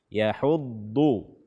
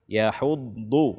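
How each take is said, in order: The two takes are said the same way.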